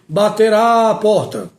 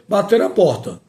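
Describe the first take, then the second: First: The vowel before porta is stretched out long. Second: The vowel before porta is short and normal. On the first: The speaker calls it wrong. "pessoas esticando A para indicar que existe uma crase" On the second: The speaker calls it right. "Você vai ler normalmente"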